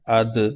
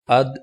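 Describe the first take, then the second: First: The final consonant ends with a bouncing echo. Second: The final consonant stops cleanly without echo. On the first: "that's with qalqala" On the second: "is without qalqala"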